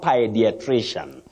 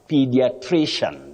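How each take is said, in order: First: The first syllable has an 'eye' vowel. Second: The first syllable has a long 'ee' vowel. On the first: The speaker calls it wrong. "not pi" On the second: The speaker calls it right. "You say P with a long, high front sound E"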